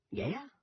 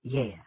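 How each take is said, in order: First: "Yeah" swooping high at the end; intrigued "Yeah?". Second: "Yeah" with a falling tune; confirming "Yeah". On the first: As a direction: ask "Yeah" softly with a steep rise. Fascinated soldier asks for more. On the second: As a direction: answer "Yeah" as a plain statement. Ollie confirms. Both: A narrator's reading.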